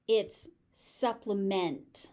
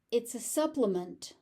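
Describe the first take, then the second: First: „supplement“ ending in full -MENT, slower; verb ending. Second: „supplement“ ending in -ment, weak; noun ending. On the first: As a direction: clear -MENT vowel. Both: Shown as a demonstration. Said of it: "pronunciation of the ending shifts".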